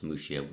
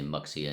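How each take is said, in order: First: "Muxia" the local way, x as sh; local pronunciation. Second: Muxia said with a hard ks for the x; "Muxia" read the English way, x as in box; English pronunciation. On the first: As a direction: say "Muxia" as MOO-shee-a. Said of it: "I think it's pronounced". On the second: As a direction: say "Muxia" as MUCK-see-a. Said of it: "We might say Muxia in English". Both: Shown as a demonstration.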